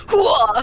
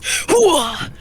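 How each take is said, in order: First: Louder, higher battle whoop; loud gung-ho soldier. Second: Loud, punchy army grunt; gung-ho soldier. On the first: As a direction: whoop it like a pumped-up marine. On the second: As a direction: bark it like an eager soldier. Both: Retold or imitated. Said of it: "and you're just".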